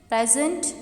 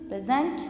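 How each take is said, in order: First: The stress is on the first syllable. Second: The stress is on the second syllable. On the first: It is a noun meaning a gift. "present अगर मैं stress first saleable पे दूँ तो इसका mining बनता है gift" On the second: It is a verb meaning to give something. "अगर मैं स्ट्रेस इसी वर्ड के सेकंड सेलेबल पे दूँ"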